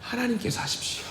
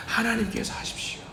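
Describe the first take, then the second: First: Soft, hushed plea to God; quiet prayer. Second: Breathy whisper of surrender; hushed whisper to God; whispered prayer. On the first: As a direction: pray it quietly, handing it over. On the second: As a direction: whisper it, giving it all to God. Repeated prayer now whispered. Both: Shown as a demonstration.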